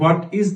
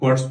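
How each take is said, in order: First: It is said as two full separate words. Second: It is said as one short contracted word. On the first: "হোয়াট ইজ না বলে" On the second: "হোয়াটস বলছেন"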